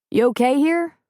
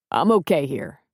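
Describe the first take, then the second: First: Lightly voiced Jack, casual and a bit higher; easy bartender question, raised a little; a touch of casual Jack; Jack asking. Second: A hint of a gruff cook; Preacher answering. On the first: Jack asks Preacher.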